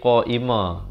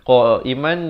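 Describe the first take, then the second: First: The word ends on a vowel. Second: The word ends with an n sound. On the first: This is the form when stopping. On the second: This is the form when reading on without stopping.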